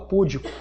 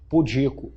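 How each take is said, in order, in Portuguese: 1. A tônica está na primeira sílaba. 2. A tônica está na segunda sílaba. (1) "muita gente fala púdico" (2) "Mas ela é o quê?"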